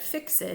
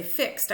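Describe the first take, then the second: First: "fixed" said as fix-ed, two syllables; "fixed" as fik-sid, two beats. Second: "fixed" said as one syllable, fikst. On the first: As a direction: sound the -ed in "fixed". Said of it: "I said fixed". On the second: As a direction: clip "fixed" to a single beat. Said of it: "Notice I didn't say fixed". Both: Shown as a demonstration.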